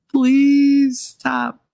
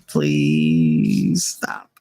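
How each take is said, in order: First: High, drawn-out imploring plea; desperate pleading. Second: Very low, drawn-out weary plea; exasperated pleading. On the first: Mother at the end of her patience, begging desperately. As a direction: wail a long, raised PLEASE, mock desperate. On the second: Worn-out mother begging her son to quit, exasperated. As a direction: stretch out PLEASE, sunk low in the voice. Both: Retold or imitated.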